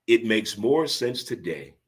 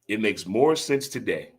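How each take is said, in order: First: Slow and deliberate, leaning on more; slow emphatic. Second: Said in the usual way. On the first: Shown as a demonstration. Host stressing his point to listeners, slow and deliberate. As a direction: stretch it out, weigh each word.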